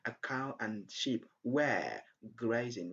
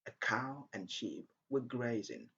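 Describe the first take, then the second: First: The small words are pronounced in full. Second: The small words are reduced with short vowels. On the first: "Instead of saying" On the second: "use the weak form, the weak form where we have a short sound"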